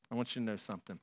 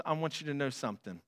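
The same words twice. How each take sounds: First: "I want you to know something" said much softer and lower; soft repeat. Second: Said in the usual way. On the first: Acted. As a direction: drop to a near hush. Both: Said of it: "repeat, second softer".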